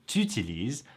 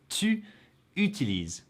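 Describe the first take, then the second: First: The vowel of tu is dropped. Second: The vowel of tu is fully pronounced. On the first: "In everyday spoken French, this often becomes t'utilises" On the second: "it's tu utilises in the present tense"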